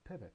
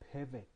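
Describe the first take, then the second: First: It is said calmly at a neutral volume. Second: It is said louder and more forcefully. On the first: The speaker is still patient. "The first time it is calm, it is neutral" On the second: The speaker is growing frustrated. "The second time louder"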